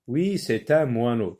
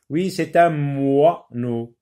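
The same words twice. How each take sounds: First: Said in the usual way. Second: Slow, with "moineau" stretched as mwaaa-no; drawn-out sound. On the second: Shown as a demonstration. Teacher sounding out for pupils, "moineau" slowly split after a long wa. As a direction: hold the wa in "moineau", then add the last syllable. Re-reads, drawing out the target sound.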